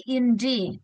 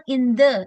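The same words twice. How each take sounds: First: "the" said as "thee" before the vowel; "in the" with "the" as a long "dee"; right way. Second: "the" said as "thuh" before the vowel; "in the" with "the" as a short "thuh"; wrong way. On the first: Teacher shows the class the right reading, "the" as "thee". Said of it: "tapi in the". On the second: Teacher shows the class the wrong reading, "the" as "thuh". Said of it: "jadi bukan in the". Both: Shown as a demonstration.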